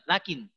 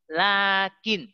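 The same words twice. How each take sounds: First: The first vowel is cut short. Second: The first vowel is held long. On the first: The speaker calls it wrong. "Bukan lakin. Lucu" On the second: The speaker calls it right. "Ini lainnya dibaca panjang"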